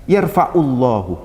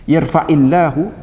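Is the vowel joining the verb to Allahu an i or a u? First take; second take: u; i. First: The verb ends in a u vowel before Allahu. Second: The verb ends in an i vowel before Allahu. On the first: The speaker calls it wrong. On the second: The speaker calls it right. "dibaca kasrah karena ada infisal"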